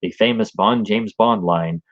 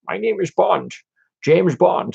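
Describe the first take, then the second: First: Said in the usual way. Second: Thrown-away, tossed-off line reading; flat Bond line. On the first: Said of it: "not delivered well". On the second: Retold or imitated. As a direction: say it lazily, throwaway. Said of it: "the line reading is always seems so bad".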